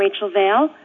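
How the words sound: The voice rises at the end like a question. The speaker sounds unsure of herself. The speaker calls it wrong. "like a question"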